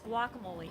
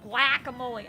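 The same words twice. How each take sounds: First: The word is pronounced in the usual standard way. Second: The word is pronounced in a deliberately odd way. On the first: The speaker calls it right. "It's guacamole" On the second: The speaker calls it wrong. "I'm purposely pronouncing it wrong"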